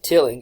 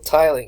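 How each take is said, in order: First: The first vowel is short, as in 'till'. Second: The first vowel is long, as in 'tile'. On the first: The speaker calls it wrong. "I pronounced that wrong. I think I said tilling" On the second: The speaker calls it right. "It's still tiling"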